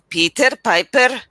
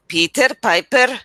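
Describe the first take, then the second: First: It is said with an Indian accent. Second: The same.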